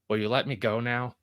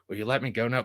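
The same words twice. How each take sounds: First: It is said in a plain, normal voice. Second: It is said in a strained, electrocuted-sounding voice.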